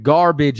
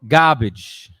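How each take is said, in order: First: Garbage is said in a standard accent. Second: Garbage is said in a Brooklynese accent.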